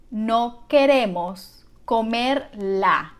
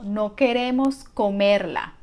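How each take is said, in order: First: Slow, word by word; slow teaching model. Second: Said in the usual way. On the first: Shown as a demonstration. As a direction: draw it out slowly for learners. Teacher models the sentence slowly first.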